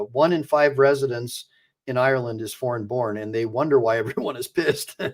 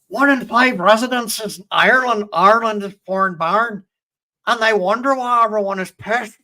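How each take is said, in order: First: It is said in the speaker's ordinary accent. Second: It is said in an imitated Irish accent.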